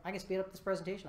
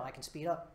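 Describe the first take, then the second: First: Rattled off fast; quick demo of faster tempo; sped up. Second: Said in the usual way. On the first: Shown as a demonstration. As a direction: rush the words to show speeding up.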